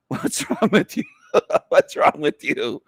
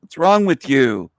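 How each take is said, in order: First: Laughing. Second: Said in the usual way. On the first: Real, not acted. Asked through laughter.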